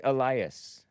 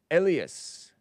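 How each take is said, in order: First: "Elias" said uh-LIE-us, stressed on the middle syllable; alternative pronunciation. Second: "Elias" said EL-ee-us, stressed on the first syllable; first pronunciation guess. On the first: Host trying the other name reading, "Elias" pronounced uh-LIE-us. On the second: Host guessing a caller's name, "Elias" pronounced EL-ee-us. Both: Shown as a demonstration. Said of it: "Or is it Elias?".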